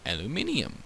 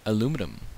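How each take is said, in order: First: It is said the British way. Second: It is said the American way.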